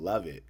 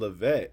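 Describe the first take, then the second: First: The name is said to sound like 'love it'. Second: The name is said to sound like 'Levette'. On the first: This is how people with that name say it. The speaker calls it right. "they pronounced it love it" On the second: This is how the narrator says the name. The speaker calls it wrong. "He's keep saying Levette"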